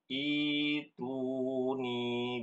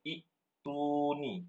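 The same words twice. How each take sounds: First: The first vowel is lengthened with no stop. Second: A glottal stop closes the first syllable. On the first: The speaker calls it right. "hamzah yang sukun diganti menjadi huruf ya, menjadi ituni seperti itu" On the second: The speaker calls it wrong.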